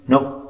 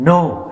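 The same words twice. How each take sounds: First: Said in the usual way. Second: NO pitched high and pushed harder; firm, emphatic no. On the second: A narrator's reading. Akalya refuses Pramod after his reassurance, emphatically. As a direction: press hard on NO, higher and drawn firm. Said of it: "என்றாள் அழுத்தமாக".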